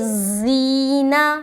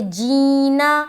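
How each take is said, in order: First: It begins with a hard, emphatic z sound. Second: It begins with a j sound. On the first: "दूसरा वाला में आपने जा बना दिया" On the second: "पहला तो आपने हर्फ को जीम बना दिया"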